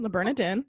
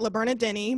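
First: The name ends without an added syllable. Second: The name ends with an added 'ee' syllable. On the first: The speaker calls it right. "I have to say it correctly the first time" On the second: The speaker calls it wrong. "I was going to call it La Bernardini"

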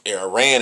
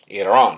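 First: It has the usual English pronunciation. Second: It has the native, non-English pronunciation. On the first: The speaker calls it wrong. "It's Iran in English" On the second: The speaker calls it right. "but it's Iran. Iran. Let's pronounce it right"

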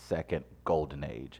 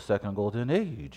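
First: It is spoken in the speaker's ordinary accent. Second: It is spoken in a put-on French accent.

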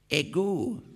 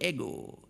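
First: The stress is on the second syllable. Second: The stress is on the first syllable. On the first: This is the Greek form of the word. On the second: This is the Latin form of the word.

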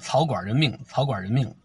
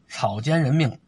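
First: The second syllable is pronounced guan. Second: The second syllable is pronounced jian. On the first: The speaker calls it wrong. "念草管人命" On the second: The speaker calls it right.

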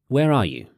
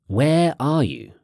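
First: The word 'where' is not specially stressed. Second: The word 'where' is strongly stressed.

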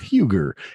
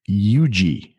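First: It begins with an H, rhyming with Ruger. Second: It begins with a vowel and has no H. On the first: The speaker calls it wrong. "kind of like Ruger" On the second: The speaker calls it right. "They pronounce it UG"

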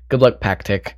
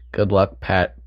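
First: The name is said as two syllables. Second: The name is said as one short syllable. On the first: The speaker calls it right. "It's Pac-Tick" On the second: The speaker calls it wrong. "I said his name wrong at first"

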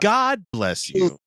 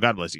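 First: The word God is strongly stressed. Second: No word gets special stress.

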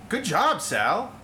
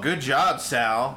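First: The tone is warm and sincere. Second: The tone is mocking and sarcastic. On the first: The speaker is genuinely praising the listener. "It's just some inflection is a positive inflection" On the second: The speaker is mocking the listener. "And you're like, oh, he's being a dick"

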